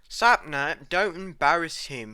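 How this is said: It is said in a put-on British accent. The speaker calls it right.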